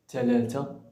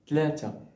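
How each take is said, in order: First: It is said in Standard Arabic. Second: It is said in Moroccan dialect.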